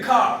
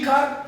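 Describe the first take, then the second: First: कार with the final R dropped; silent R. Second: कार with the final R sounded; R pronounced. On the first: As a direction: end कार on a long "aa", no R. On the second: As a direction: say the R at the end of कार. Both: Shown as a demonstration. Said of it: "हम pronounce नहीं करेंगे".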